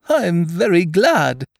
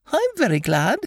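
First: High, slow, loud gladness; happy Pooh. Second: Very high, happy little squeak; happy Piglet. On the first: Pooh pleased with his gift to Eeyore, happy. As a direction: draw it out with bear-like contentment. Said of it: "said Pooh happily". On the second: Piglet pleased with his gift to Eeyore, happy. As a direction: pipe it up in a tiny pleased voice. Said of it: "said Piglet happily". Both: A narrator's reading.

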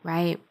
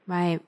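The two takes are said the same way.

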